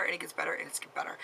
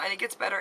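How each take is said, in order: First: Softer each time until a whisper; fading to a whisper. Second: Said in the usual way. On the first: Real, not acted. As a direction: let it trail off into a whisper. Repeating reassurance, fading out.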